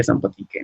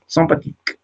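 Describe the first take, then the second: First: Sympathique with the final e sounded, sam-pa-ti-ke; hypothetical accented ending. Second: Sympathique with the final e silent, ending on the k; correct French pronunciation. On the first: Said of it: "Si tuviera el acento". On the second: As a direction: Sympathique the French way, nasal first vowel and no final vowel. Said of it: "Pero no". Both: Shown as a demonstration.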